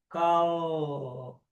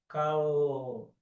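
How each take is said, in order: No difference in how they are said.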